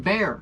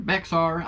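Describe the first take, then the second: First: The word is said without an x sound. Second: The word is said with an x sound. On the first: The speaker calls it right. "It is actually Bear Anglers. The X is silent" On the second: The speaker calls it wrong. "I've been pronouncing it"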